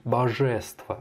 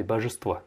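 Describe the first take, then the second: First: "божество" stressed on the wrong syllable. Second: "божество" with stress on the final syllable; stress on last syllable. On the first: Teacher imitates the student's misplaced stress in "божество". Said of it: "Tu as dit божество". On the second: Teacher models final stress in "божество". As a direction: land the stress at the end of "божество". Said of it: "c'est божество". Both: Shown as a demonstration.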